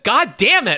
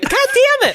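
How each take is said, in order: First: It is said in a normal voice. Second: It is said in a very high voice.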